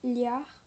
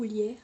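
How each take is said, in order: First: "Liard" with an open a vowel; tentative pronunciation. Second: "Lière" with an è vowel; alternative pronunciation. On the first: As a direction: try out "Liard", ending like "yar". (essai de prononciation, « Liard » avec un « a » ouvert) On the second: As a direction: offer "Lière", ending like "yère". (autre prononciation, « Lière » avec un « è ») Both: Shown as a demonstration. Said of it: "comment ça se présente, prononce".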